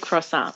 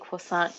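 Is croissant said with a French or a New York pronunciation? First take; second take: New York; French. First: It is said with a New York pronunciation. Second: It is said with a French-style pronunciation. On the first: "like a New Yorker" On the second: "I love that you say it correctly"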